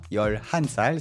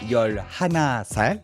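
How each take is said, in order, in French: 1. Le deuxième mot de nombre est réduit à une seule syllabe. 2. Le deuxième mot de nombre garde sa forme complète. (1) "c'est bien 열 한 살" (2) "Pas 열 하나 살"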